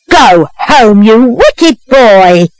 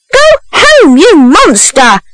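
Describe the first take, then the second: First: Slow, drawn-out reproach at usual pitch; scolding. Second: High-pitched, indignant order; outraged scolding. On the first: Woman onlooker to a runaway boy, slow scolding. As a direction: scold slowly, stretching the words. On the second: Second woman onlooker to a runaway boy, high outraged scolding. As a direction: send them off in high-voiced outrage. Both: A narrator's reading.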